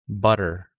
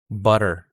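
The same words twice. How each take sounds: First: The middle T is a quick tongue flap. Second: The middle T is a quick tongue flap.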